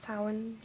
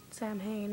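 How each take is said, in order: First: Samhain said as "SOW-en"; Gaelic Samhain pronunciation. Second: Samhain said as "sam-hayn"; spelled-out Samhain pronunciation. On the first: Listing names she switches between, Samhain as "SOW-en". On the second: Listing names she switches between, Samhain as "sam-hayn". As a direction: say "Samhain" with a sounded m and h. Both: Shown as a demonstration. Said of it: "switch up between".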